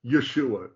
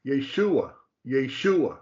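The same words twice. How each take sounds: First: YESHUA as yuh-SHOO-uh; shva pronunciation. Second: YESHUA as yay-SHOO-uh; full AY in the first syllable of YESHUA, stress SHOO; second pronunciation. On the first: Teacher demonstrating the first word, YESHUA with a reduced first vowel. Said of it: "just barely saying the sound of that letter". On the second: Teacher showing the second word, YESHUA as yay-SHOO-uh. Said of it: "The second one there is pronounced". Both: Shown as a demonstration.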